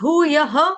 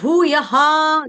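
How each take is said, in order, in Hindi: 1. शब्द का अंत लघु 'h' ध्वनि से होता है। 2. शब्द का अंत पूरी 'ha' ध्वनि से होता है। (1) "विसर्ग का उच्चारण करेंगे ह या हा से" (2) "दोनों मान्य हैं, दोनों सही हैं"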